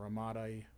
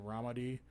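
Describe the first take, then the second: First: Ramadi with the stress on the middle; alternative pronunciation attempt. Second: Ramadi with the stress up front; first pronunciation attempt. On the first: Host correcting himself for listeners, Ramadi stressed as ruh-MAH-dee. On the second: Host reading events aloud, unsure pronunciation of Ramadi, RAH-muh-dee. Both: Real, not acted. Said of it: "I don't know how to say it".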